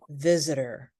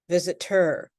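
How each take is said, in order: First: The T is a soft, light D sound. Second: The T is a sharp, popped T sound. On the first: The speaker calls it right. "light D sound" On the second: The speaker calls it wrong. "we do not say"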